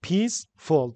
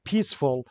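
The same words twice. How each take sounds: First: "peaceful" as two separate beats, peace-ful; split into syllables. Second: Said in the usual way. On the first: Shown as a demonstration. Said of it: "دو تا". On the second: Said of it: "How many syllables are there".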